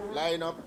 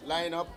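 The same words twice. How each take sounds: The two takes are said the same way.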